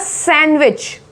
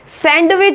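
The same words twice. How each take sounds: First: The middle d sound is left out. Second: The middle d sound is pronounced. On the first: The speaker calls it right. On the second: The speaker calls it wrong.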